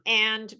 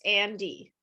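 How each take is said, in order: First: It ends cleanly on the final consonant. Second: An extra vowel follows the final consonant. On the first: The speaker calls it right. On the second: The speaker calls it wrong.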